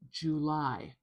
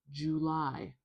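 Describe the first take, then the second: The two takes are said the same way.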